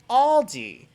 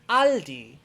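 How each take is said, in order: First: It is said with an English pronunciation. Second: It is said with a German pronunciation. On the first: "In English" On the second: "In German"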